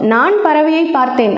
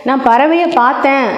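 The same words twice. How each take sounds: First: The stress falls on the first word. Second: The stress falls on the last word. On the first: It tells who saw the bird. "நான் அப்படிங்கிற சொல்லுக்கு அழுத்தம் கொடுத்தேன்" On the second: It tells that the bird was only seen. "பார்த்தேன் ... அப்படின்னு சொல்கிறதுக்கு அழுத்தம் கொடுத்தா"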